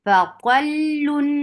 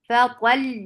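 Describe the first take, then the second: First: The word ends with an added -un sound. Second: The word ends on a bare held consonant. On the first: The word is read joined to what follows. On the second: The reader stops on this word.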